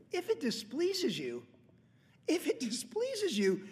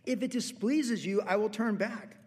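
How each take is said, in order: First: "displeases" stretched out, much higher and slower; pressing "displeases" home, higher and slower; emphatic repeat. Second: Said in the usual way. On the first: Shown as a demonstration. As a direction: linger on "If it displeases you" high and slow. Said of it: "repeated for emphasis". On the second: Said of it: "it says".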